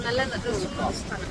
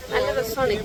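First: Very soft, drawn-out murmur; soft slow murmur. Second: Said in the usual way. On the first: Real, not acted. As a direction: breathe it out slowly, almost to yourself. Repeats the phrase twice.

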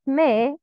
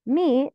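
First: مي said as "may"; incomplete kasra. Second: مي said as "mee"; full "ee" vowel on مي; complete kasra. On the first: Teacher showing the mistake, مي as "meh". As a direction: open مي to an "eh" vowel. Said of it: "not مي". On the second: Teacher showing the kasra, مي as "mee". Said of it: "Complete the كسرة". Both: Shown as a demonstration.

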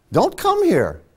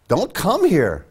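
First: Much higher, pressing the word come; emphatic repeat. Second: Said in the usual way. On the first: Real, not acted. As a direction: push it up high, insisting. Repeated warning to dissenters.

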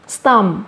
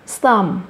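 The two takes are said the same way.

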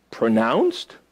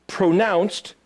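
First: PRONOUNCED as a question, starting low and rising sharply at the end; puzzled question. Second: Said in the usual way. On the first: Acted. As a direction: query PRONOUNCED with a steep final rise. Questions the meaning just read.

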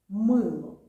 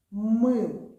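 First: «мило» with a loud МИ; «мило» stressed on МИ, the second syllable falls; stress on the first syllable. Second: «Мило» with МИ loud and long; «Мило» stressed on the first syllable, falling after it. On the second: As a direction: hit МИ in «Мило». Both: Shown as a demonstration. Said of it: "Ми робимо акцент на перший склад".

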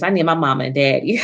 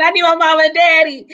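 First: Said in the usual way. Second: High and louder, laughing through the words; rueful laughing replay; laughing repeat. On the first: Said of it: "I told my husband". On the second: Retold or imitated. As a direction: laugh at yourself as you quote it. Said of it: "I remember saying".

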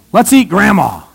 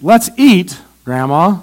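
First: EAT GRANDMA run together, falling at the end; no pause between EAT and GRANDMA; no comma before GRANDMA. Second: Slow, pause after EAT, GRANDMA lifted as an address; comma before GRANDMA. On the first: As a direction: say GRANDMA straight on as the thing eaten. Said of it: "Commas make a difference. Like this one here". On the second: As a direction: call to GRANDMA after a break. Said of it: "Did you see the difference?". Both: Shown as a demonstration.

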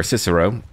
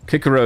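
First: Said in the usual way. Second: Cicero with a hard K, "Kikero"; Latin-style Cicero. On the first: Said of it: "stick with what's a little bit more contemporary". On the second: Shown as a demonstration. Naming the city the old Latin way, Cicero with a hard K. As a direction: say Cicero the classical way, hard K at the start. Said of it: "how we believe a language might have been pronounced".

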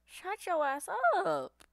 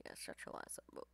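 First: Mock taunt. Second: Whispered taunt. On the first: Taunting an enemy player mid-fight. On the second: Acted. Repeats the taunt under his breath.

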